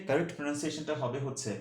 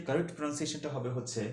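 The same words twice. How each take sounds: The two takes are said the same way.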